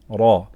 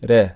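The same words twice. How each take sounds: First: The r is said heavy and full. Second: The r is said light and thin. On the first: The speaker calls it right. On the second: The speaker calls it wrong.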